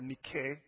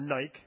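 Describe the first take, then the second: First: Nike is said the original Greek way. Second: Nike is said the local English way. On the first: "in its original" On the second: "as we might say here"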